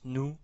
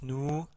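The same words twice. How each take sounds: First: The vowel is short. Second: The vowel is long. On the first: "avec la damma" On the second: "la voyelle longue waw"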